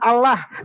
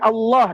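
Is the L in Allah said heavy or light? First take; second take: light; heavy. First: The double L is said light and thin. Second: The double L is said heavy and thick. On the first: The speaker calls it wrong. "Bukan Allah" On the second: The speaker calls it right. "tapi Allah. Dibaca tafkhim, dibaca tebal"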